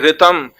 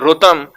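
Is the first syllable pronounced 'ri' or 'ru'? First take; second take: ri; ru. First: The first syllable is pronounced 'ri'. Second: The first syllable is pronounced 'ru'. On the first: This is how northern speakers say it. "we'll say ritam" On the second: This is how southern speakers say it. "they'll say rutam"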